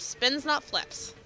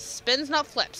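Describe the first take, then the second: First: "Spins, not flips" said slowly, each word spaced; slow emphatic repeat. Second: Said in the usual way. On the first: Shown as a demonstration. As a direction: spell it out slowly, "not" leaning on the contrast.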